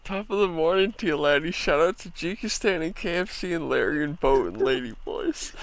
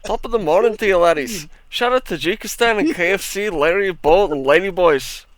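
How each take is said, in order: First: Tentative mock Irish brogue; attempted Irish accent. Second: Loud, higher mock Scottish brogue; Scottish accent. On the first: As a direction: try an Irish accent, lightly. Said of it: "gotta say all that with an Irish accent". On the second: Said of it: "I could do a better Scottish than Irish". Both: Shown as a demonstration.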